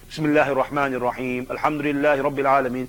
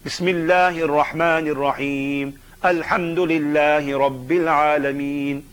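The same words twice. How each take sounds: First: It is recited at normal talking speed. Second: It is recited somewhat slowly and reflectively.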